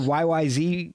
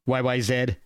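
First: The last letter is pronounced 'zee'. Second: The last letter is pronounced 'zed'. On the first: The speaker calls it wrong. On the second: The speaker calls it right.

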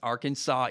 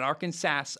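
First: The word ends with a 'saw' sound. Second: The word ends with a 'sas' sound. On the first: The speaker calls it right. "I always have to write Arcan, S-A-W" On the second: The speaker calls it wrong. "Not Arkansas"

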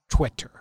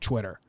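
First: The word begins with a plain 't' sound. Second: The word begins with a 'ch' sound. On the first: The speaker calls it right. "not Twitter" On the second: The speaker calls it wrong. "you do say Twitter"

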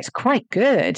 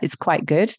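First: It is said in a positive, enthusiastic tone. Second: It is said in a flat, neutral tone.

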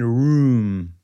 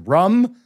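First: The vowel is a long oo sound. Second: The vowel is a short clipped sound. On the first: "That's how you say it" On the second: "the Boston accent is rum"

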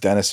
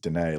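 First: The final S sound is pronounced. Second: The final S sound is left silent.

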